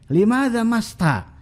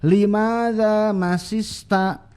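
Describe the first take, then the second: First: The verb has only one s sound. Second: The verb has two separate s sounds. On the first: "di sebagian dialek sinnya hilang satu" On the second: "masista sinnya ada dua"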